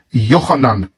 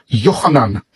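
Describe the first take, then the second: No difference in how they are said.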